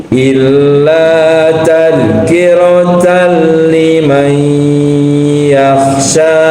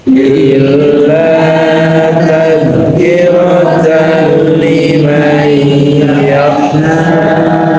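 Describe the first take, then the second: No difference in how they are said.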